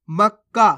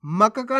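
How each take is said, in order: First: मक्का as mak-kaa, doubled क; half-letter pronunciation. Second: मक्का का as ma-ka-kaa; full-letter misreading. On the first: Teacher shows the right reading, मक्का with half क. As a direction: hold the क closed in मक्का, no vowel. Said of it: "आधा का पढ़ रहे हैं". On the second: Teacher warns learners, मक्का का with full क. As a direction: sound each क fully in मक्का का. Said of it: "नहीं पढ़ना आपको". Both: Shown as a demonstration.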